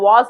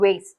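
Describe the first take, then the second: First: The word is pronounced the British English way. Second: The word is pronounced the American English way. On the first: "British Englishல இத நம்ம vase ன்னு சொல்லுவோம்" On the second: "American Englishல தான் இது vase"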